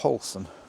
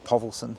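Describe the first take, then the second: First: The surname is said without a v sound. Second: The surname is said with a v sound. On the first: The speaker calls it wrong. "I thought it would be Paulson" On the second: The speaker calls it right. "everyone seems to say Povelsen"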